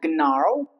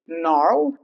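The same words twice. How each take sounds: First: The word begins with an audible G sound. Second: The word begins with no G sound. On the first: The speaker calls it wrong. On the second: The speaker calls it right.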